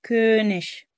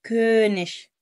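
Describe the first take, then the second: No difference in how they are said.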